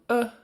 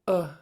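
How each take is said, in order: First: The vowel is said on a high tone. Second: The vowel is said on a low tone. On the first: "And high tone" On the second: "Low short U"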